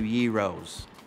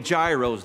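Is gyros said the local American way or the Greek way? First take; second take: Greek; American. First: Gyros is said the Greek way. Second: Gyros is said the local American way. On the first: This is how Greek speakers say it. "a real Greek will tell you gyros" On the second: This is how people here say it. "Y'all say gyros down here"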